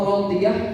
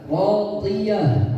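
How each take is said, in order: First: The h sound is light and unclear. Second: The h sound is heavy and clear. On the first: The speaker calls it wrong. "Atau radiyah salah" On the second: The speaker calls it right. "Radiyah harusnya ya"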